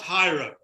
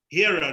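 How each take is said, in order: First: The first syllable sounds like 'high'. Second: The first syllable sounds like 'hear'. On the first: The speaker calls it wrong. "not hiro" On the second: The speaker calls it right. "We pronounce it hero"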